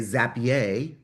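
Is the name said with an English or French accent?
French. It is said with a French accent.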